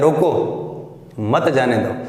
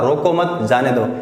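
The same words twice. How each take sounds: First: There is a pause after the first word. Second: There is a pause after the second word. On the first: Stop him; do not let him go. "रोको के आगे क्या लगा दिया, अल्प विराम लगा दिया" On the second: Do not stop him; let him go. "रोको मत, थोड़ा सा रुका"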